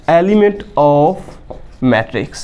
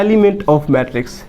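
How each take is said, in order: First: "Element of" drawn out with a rise, pause, then "matrix" dropped low; term repeated slowly for dictation. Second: Said in the usual way. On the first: Shown as a demonstration. Teacher repeating the term so students can write it, slow dictation. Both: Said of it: "क्या कहते हैं?".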